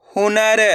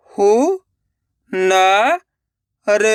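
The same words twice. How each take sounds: First: Said in the usual way. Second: हु, न, र separated by pauses; syllable by syllable. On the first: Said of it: "direct मात्रा का उच्चारण करके पढ़ेंगे". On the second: Shown as a demonstration. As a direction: sound out हु, न, र one at a time. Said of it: "एक एक अक्षर का उच्चारण करके". (हु, न, र एक-एक अक्षर रुक-रुक कर)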